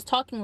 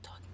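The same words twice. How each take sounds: First: Said in the usual way. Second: Faint demonstrated whisper. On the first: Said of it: "but talking normal". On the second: Shown as a demonstration. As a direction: drop to a barely audible whisper. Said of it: "why I started whispering".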